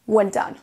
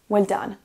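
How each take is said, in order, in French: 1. Les deux mots s'enchaînent comme un seul mot. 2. Les deux mots s'enchaînent comme un seul mot.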